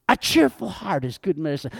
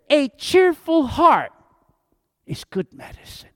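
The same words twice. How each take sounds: First: Said in the usual way. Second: Big high "cheerful heart", then a near-whispered "is good medicine"; emphatic verse. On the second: Acted. Verse read first for emphasis.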